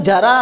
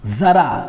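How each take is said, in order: First: It starts with a j sound. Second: It starts with a z sound. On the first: Old age. The speaker calls it wrong. "गलत बोल रहे हैं" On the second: A little. The speaker calls it right. "जरा मतलब थोड़ा"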